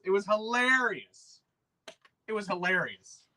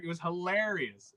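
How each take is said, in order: First: "It was hilarious" stretched slow and relishing; drawn-out delight. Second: Said in the usual way. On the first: Real, not acted. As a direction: savour every word of "hilarious". Repeats the phrase, savouring it.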